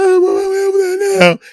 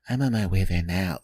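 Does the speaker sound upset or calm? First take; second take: upset; calm. First: It sounds upset and angry. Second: It sounds calm and friendly.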